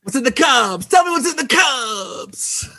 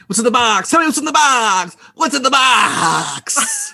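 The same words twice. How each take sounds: First: High, loud, slow anguished shout; Brad Pitt impression. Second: High, loud anguished cry of the line; Brad Pitt impression. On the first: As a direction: bellow it like the tormented detective, dragging it out. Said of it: "do it again". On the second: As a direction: scream it out like a desperate detective in the final scene. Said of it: "give me your best what's in the cups".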